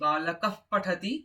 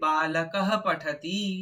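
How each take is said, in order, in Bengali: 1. h ধ্বনিটি ছোট করে কাটা হয়, p ধ্বনিটি f-এর মতো শোনায়। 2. p-এর আগের h ধ্বনিটি পুরোটা উচ্চারিত হয়। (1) "বিসর্গটাকে অর্ধেকে থামিয়ে দিচ্ছি" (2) "বিসর্গটাকে আমরা পুরোটা বলছি"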